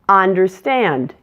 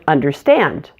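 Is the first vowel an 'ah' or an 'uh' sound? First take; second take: ah; uh. First: The first vowel is an open 'ah' sound. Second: The first vowel is a relaxed 'uh' sound. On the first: The speaker calls it wrong. "use an ah sound where they should use an uh sound" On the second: The speaker calls it right. "instead of"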